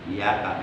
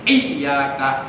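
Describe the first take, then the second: First: The y sound is short and single. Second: The y sound is held long and doubled. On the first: The speaker calls it wrong. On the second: The speaker calls it right.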